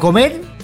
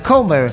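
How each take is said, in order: First: It is pronounced like the Spanish verb comer. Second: It is pronounced like an English surname. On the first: "como comer" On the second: "pero Comer"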